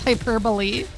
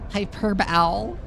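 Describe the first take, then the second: First: The word is pronounced the usual way. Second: The word is pronounced as its spelling suggests. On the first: The speaker calls it right. "No, it's hyperbole" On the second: The speaker calls it wrong. "I used to pronounce hyperbole as hyperbole"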